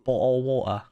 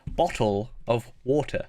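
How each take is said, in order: First: It is said in her ordinary mild accent. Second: It is said with an exaggerated British accent.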